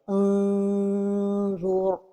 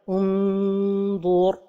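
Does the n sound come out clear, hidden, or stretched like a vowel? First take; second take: stretched; clear. First: The tongue drops away, stretching it like a vowel. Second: The tongue touches the palate, giving a clear n. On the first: "La deuxième erreur est de trop éloigner la langue du palais supérieur" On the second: "La première erreur est de coller le bout de la langue au palais supérieur"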